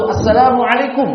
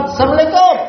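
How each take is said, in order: First: "Assalamualaikum" diucapkan utuh dan jelas per suku kata; pengucapan yang benar. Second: "Assalamualaikum" cepat dan ditelan jadi "semleka", lebih tinggi; salam yang salah. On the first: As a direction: ucapkan "Assalamualaikum" lengkap, tidak ditelan. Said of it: "Cara mengucapkan salam itu". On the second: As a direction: salam asal-asalan yang disingkat. (ucapan salam tergesa yang keliru) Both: Shown as a demonstration.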